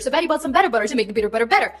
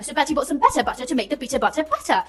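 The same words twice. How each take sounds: First: It is said in an American accent. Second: It is said in a British accent.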